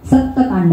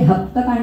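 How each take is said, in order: First: The word begins with an s sound. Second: The word begins with an h sound. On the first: This is the standard form of the name. "सप्तकांड Ramayana" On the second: This is how it is said in Assamese. "पण उच्चारामध्ये ते हप्तकांड होतं"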